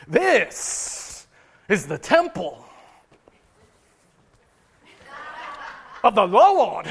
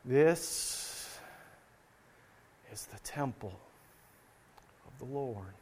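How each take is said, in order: First: Hammed-up televangelist, long dramatic pauses, loud final words; mock TV evangelist milking every phrase, stretched out; emphatic TV preacher. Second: Hushed, slow and low, long reverent pauses; very solemn. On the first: Preacher parodying TBN brothers and sisters, mock emphatic. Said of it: "maybe they get real emph-, emphatic about it". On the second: Preacher imitating worshippers repeating the temple phrase, very solemn. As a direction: drop to a low, solemn near-whisper, spaced out. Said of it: "or maybe very solemnly". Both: Shown as a demonstration.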